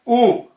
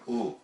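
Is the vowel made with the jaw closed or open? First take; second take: open; closed. First: The vowel is made with the jaw wide open. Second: The vowel is made with teeth closed, sounding muffled. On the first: The speaker calls it right. "we want to open as far as we can" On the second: The speaker calls it wrong. "They'll close their jaws up too. Their teeth come right in"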